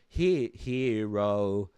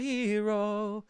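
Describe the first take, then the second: First: The word is over-enunciated with exaggerated articulation. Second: The word is said plainly with relaxed articulation. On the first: The speaker calls it wrong. "over enunciated or over pronounced like that" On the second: The speaker calls it right. "It doesn't need to be over pronounced"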